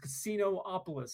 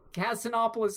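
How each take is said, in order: First: The o after casin is drawn out, doubled. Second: The o after casin is short and single. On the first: The speaker calls it right. "I understand there's only one O in there" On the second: The speaker calls it wrong. "is not how you say it"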